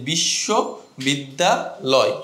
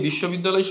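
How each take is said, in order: First: বিশ্ববিদ্যালয় slowly split as বিশ্ব, বিদ্যা, লয়, a beat between each; broken into parts. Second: Said in the usual way. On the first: Shown as a demonstration. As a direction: break বিশ্ববিদ্যালয় into three separate chunks, pausing after বিশ্ব and বিদ্যা. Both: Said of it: "এইভাবে ভেঙে ভেঙে যখন আমি উচ্চারণ করছি".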